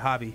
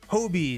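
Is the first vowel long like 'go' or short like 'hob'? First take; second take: short; long. First: The first vowel is short, like in 'hob'. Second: The first vowel is long, like in 'go'. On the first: The speaker calls it wrong. "not Hobby" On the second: The speaker calls it right. "It's Hobie"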